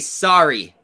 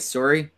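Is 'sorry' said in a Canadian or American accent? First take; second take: American; Canadian. First: The first vowel is open, like 'saw'. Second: The first vowel is rounded, like 'sore'. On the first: "You guys say sorry" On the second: "That's how we say Sori"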